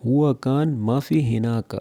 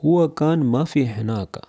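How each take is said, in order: Both takes have the same delivery.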